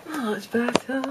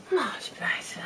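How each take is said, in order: First: Said in the usual way. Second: Much softer, whispered "Much better"; whispered relief. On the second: Real, not acted. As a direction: breathe it out in relief. Relief after removing shoes.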